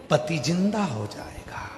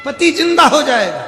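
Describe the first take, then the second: First: Soft, falling end to the promise; softer promise. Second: High, loud cry falling at the end; loud proclamation. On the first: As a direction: say it quietly, letting it drop. Guru's promise, first take. (धीमे स्वर में) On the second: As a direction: call it out for all to hear. Guru repeats promise far louder. (ऊँचे स्वर में पुकारकर) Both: Acted.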